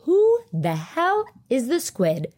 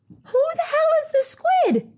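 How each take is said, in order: First: Emphatic, drawn-out question, only moderately raised; retold demanding question. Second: Very high, held-up squeal of disbelief; high exasperated squeal. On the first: Asking Lisa who the squid in the bathroom is, exasperated. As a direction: ask slowly with exasperated weight on "Who the hell". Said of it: "I was asking Lisa". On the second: Retold or imitated. Retelling her outrage at the bathroom hog, squealed in exasperation. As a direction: squeal the whole question way up high. Exasperated retold outburst about squid.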